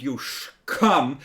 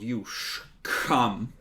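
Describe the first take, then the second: First: Put-on slow slurred drunken mumble; drunk mumbling. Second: Put-on slurred drunken mumble; drunk slurring. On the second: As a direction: slur it like a town drunk. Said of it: "slurring his words slightly".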